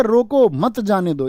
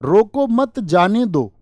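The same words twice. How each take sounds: First: रोको on its own, then मत जाने दो together; रोको, brief stop, मत जाने दो; comma after रोको. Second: रोको मत as one unit, then जाने दो; रोको मत, brief stop, जाने दो; comma after मत. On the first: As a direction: break after रोको, so it means stop them. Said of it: "यानी यहाँ रुकने की बात है". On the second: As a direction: break after मत, so it means let them go. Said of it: "रोको मत के बाद comma". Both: Shown as a demonstration.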